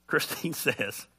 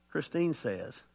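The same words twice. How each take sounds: First: Said through a slow laugh. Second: Said in the usual way. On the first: Real, not acted. Pastor starting to quote his wife, slow laughing. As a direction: break into a laugh mid-phrase.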